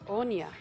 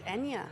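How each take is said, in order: First: The name starts with an 'o' vowel sound. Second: The name starts with an 'e' vowel sound. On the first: The speaker calls it wrong. "I'm pronouncing it Onya, and I've obviously got that wrong" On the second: The speaker calls it right. "So it's Enya, as in the music star"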